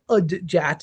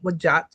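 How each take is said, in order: First: It begins with 'ud', a d before j. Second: It begins with a 'w' sound, 'wu'. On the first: The speaker calls it wrong. "a lot of people say" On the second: The speaker calls it right.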